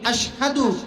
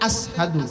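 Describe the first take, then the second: First: The word is said with a 'sh' sound. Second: The word is said with an 's' sound.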